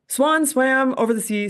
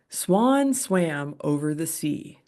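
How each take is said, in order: First: It is said at a quicker, faster pace. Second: It is said at a slower, ordinary pace.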